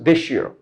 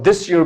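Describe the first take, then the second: First: The s in 'this' links into a sh sound. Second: The s in 'this' stays a plain s sound. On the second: "there's S sound here"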